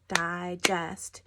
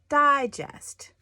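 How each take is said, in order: First: The stress is on the second syllable. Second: The stress is on the first syllable. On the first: It means to process food that was eaten. "I put the emphasis on the second syllable" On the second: It means a kind of magazine. "I put my emphasis on the first syllable"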